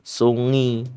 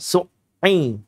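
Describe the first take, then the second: First: The middle sound flows softly like an ng sound. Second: The middle sound is cut off with a brief stop. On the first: "kalau dibacanya rokhwah ya salah juga. Sungi. Ada yang baca sungi" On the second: "bukan dengan cara yang seperti syiddah uh, berhenti sejenak. Misal su'i, su'i, bukan"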